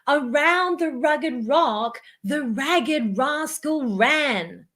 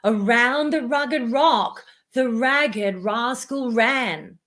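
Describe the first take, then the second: First: It is spoken at a high pitch. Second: It is spoken at a middle pitch. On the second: "Let's try it higher"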